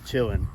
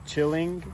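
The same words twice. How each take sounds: First: The word ends without the g sound. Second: The word ends with a full g sound. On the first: "when you say it fast, it's just chilling. So you take the G off the end" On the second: "Usually it's it's chilling"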